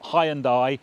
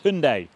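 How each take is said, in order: First: The name is said the traditional British way. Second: The name is said the non-British way. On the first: The speaker calls it wrong. "like most Brits, I called it a Hyundai" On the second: The speaker calls it right. "it's Hyundai"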